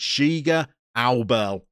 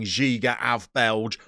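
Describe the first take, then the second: First: The middle consonant is softened, not a full v. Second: The middle consonant is a full English v. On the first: The speaker calls it right. "V's are not quite pronounced like that in the middle of Slovenian words. It's" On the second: The speaker calls it wrong. "we have been saying Giga av Belge, all different kinds of wrong"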